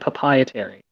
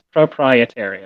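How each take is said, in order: First: The R sounds in the word are dropped. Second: The R sounds in the word are clearly pronounced. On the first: The speaker calls it wrong. "Stop saying papietary" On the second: The speaker calls it right. "it's proprietary"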